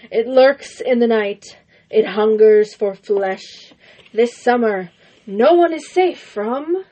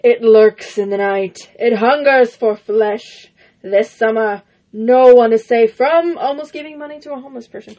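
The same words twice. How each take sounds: First: Slow, ominous trailer narration; horror trailer voice. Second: Loom over each word, movie-teaser style; horror trailer voice. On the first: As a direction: build dread like a horror teaser. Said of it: "A horse with no legs". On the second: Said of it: "That's terrible". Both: Acted.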